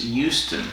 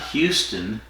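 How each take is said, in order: First: The word begins without an H sound. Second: The word begins with an H sound. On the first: The speaker calls it right. "They drop the H" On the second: The speaker calls it wrong. "it's not Houston"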